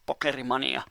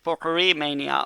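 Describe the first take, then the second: First: The name is pronounced in a Finnish way. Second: The name is pronounced in an English way. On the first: "as we pronounce it in, in Finnish" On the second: "how do you pronounce this in English?"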